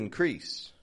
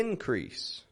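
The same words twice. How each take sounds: First: The stress is on the second syllable. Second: The stress is on the first syllable. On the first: It is used as a verb. "to increase" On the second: It is used as a noun. "The increase"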